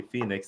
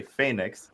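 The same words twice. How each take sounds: First: FEE-nix, first vowel as in "fee"; Phoenix with long ee. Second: FAY-nix, ay in Phoenix's first syllable. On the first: Shown as a demonstration. Repeating how we say it, Phoenix with long ee. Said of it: "every single time we say Phoenix". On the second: Retold or imitated. Quoting the people correcting them, Phoenix with ay. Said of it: "they say Phoenix".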